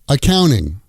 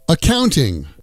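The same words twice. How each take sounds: First: The T after the N is dropped. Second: The T after the N is clearly pronounced.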